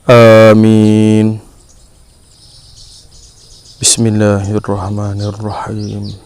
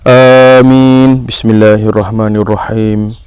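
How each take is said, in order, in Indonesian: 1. Jeda pendek memisahkan dua frasa. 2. Frasa berikutnya bersambung terus tanpa jeda. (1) "Yang betulnya" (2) "Sebagai contoh yang salah"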